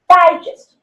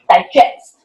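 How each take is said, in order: First: The stress is on the first syllable. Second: The stress is on the second syllable. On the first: It is a noun. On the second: It is a verb. "so it is a verb"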